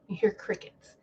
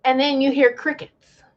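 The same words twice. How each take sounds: First: Breathy whisper of crickets; whispered repeat. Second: Said in the usual way. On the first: Shown as a demonstration. Whispering to viewers that nobody answered. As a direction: whisper it into the silence.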